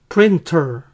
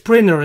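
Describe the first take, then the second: First: It is said carefully, with a clear t. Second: It is said fast, with the t dropped. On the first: "también lo pueden pronunciar printer" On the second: "una forma rápida de decirlo que muchas veces van a oír en la vida real"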